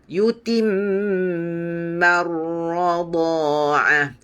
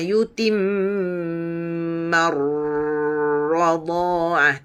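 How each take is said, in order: First: The voice moves straight through the doubled r. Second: The voice holds and hums on the doubled r. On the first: The speaker calls it right. "Terus pada ra" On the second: The speaker calls it wrong.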